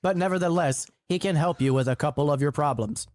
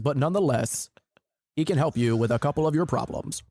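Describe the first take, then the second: First: It is said in his normal voice. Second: It is said in a put-on voice.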